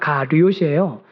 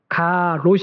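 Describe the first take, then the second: First: The second syllable has a 'yo' vowel. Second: The second syllable has a plain 'o' vowel. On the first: The speaker calls it right. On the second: The speaker calls it wrong. "가롯이 아니라"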